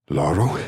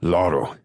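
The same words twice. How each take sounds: First: "Laro?" asked with a rising question tune; questioning call. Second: "Laro." said as a firm command with a falling tune; demanding. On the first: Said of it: "Not a question this time". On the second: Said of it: "Not a question this time. I'm demanding his presence". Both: Acted.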